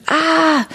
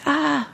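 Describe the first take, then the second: First: A high, loud ah; sudden high yelp of fright; acted scream. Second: A high, breathy little ah; hint at the scream without voicing it; mock scream, barely voiced. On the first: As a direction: scream it out as if fear just hit you. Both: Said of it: "I screamed".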